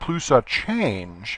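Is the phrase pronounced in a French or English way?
English. It is said with an English pronunciation. It avoids sounding pretentious. "I'm just not even going to try to Frenchify it"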